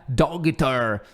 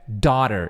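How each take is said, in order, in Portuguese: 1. Ouve-se um som de g forte no meio. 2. Não se ouve som de g no meio. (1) "Claro que escreve desse jeito muito maluco aqui, né? Dogter, mas não é dogter" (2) "é daughter"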